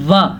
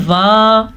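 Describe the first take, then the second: First: "وا" cut short, a brief wa; corrected short vowel. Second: "وا" with the vowel drawn out long; common misreading. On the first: Teacher corrects the common mistake, short "وا". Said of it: "نہیں، یہ ہے". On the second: Teacher mimics what people often read, over-long "وا". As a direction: stretch "وا" into a long aa. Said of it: "اکثر لوگ پڑھ لیتے ہیں". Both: Shown as a demonstration.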